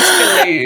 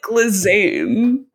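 First: The name is said with the s silent. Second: The name is read letter by letter with a z. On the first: This is how the name is actually said. The speaker calls it right. "but it's pronounced Ghislaine" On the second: This is how the spelling looks. The speaker calls it wrong. "Her name is spelled like Glizane"

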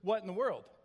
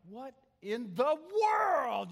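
First: The words are said in a calm, neutral way. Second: The words are said in a harsh, scolding way. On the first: "he wouldn't say it like I just shared it with you" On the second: "He would emphasize different words, and you felt like you had just been like cut open"

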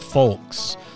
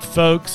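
First: The L sound is pronounced. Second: The L sound is silent. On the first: The speaker calls it wrong. "not folks" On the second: The speaker calls it right. "I'm calling it folks, I'm taking the L out"

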